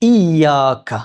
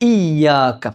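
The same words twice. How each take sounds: No difference in how they are said.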